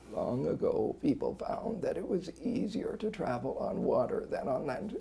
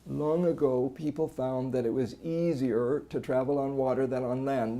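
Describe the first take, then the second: First: Strained voice with a rough, gravelly quality. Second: Constant strain throughout, with no voice stoppages. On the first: "A strain that's got more gravel in it" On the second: "No phonatory arrest, but there's just this constant strain"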